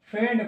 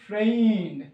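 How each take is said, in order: First: The vowel is a short 'e' with no 'i' sound. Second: The vowel glides like 'ay' with an 'i' sound. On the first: The speaker calls it wrong. "অনেকে আমরা বাঙালি তো এটাকে shortcut করে দেয়" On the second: The speaker calls it right. "Total set আপটার উচ্চারণ হচ্ছে ফ্রেইন্ড"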